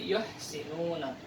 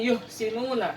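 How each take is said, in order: First: The h fills the mouth with breath. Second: The h is weak, with little breath. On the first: The speaker calls it right. "tapi yuhsinuna" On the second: The speaker calls it wrong. "Jadi bukan yuhsinuna"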